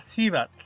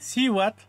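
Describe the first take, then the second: First: The middle consonant is a b sound. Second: The middle consonant is a w sound. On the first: "se asemeja mucho al ba"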